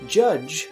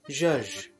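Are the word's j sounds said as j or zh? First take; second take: j; zh. First: The word is said with j sounds. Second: The word is said with zh sounds. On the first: "a word such as judge" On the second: "sounds like judge"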